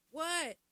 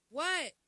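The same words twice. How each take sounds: First: Loud, high curt what; rude what. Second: Loud, high snapped what; rude what. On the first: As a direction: snap it back rudely. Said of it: "Which one would you get slapped". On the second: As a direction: bark back at mom rudely. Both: Shown as a demonstration.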